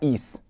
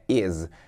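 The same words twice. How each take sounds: First: The word ends with a hissing s sound. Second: The word ends with a buzzing z sound. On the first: The speaker calls it wrong. "não é is" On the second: The speaker calls it right. "Tipo com um Z no final"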